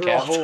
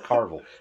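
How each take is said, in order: First: The first syllable has no R sound. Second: The first syllable has an R sound. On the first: The speaker calls it right. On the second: The speaker calls it wrong.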